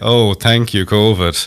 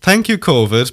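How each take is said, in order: First: It is said in a sarcastic tone. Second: It is said in a sincere tone.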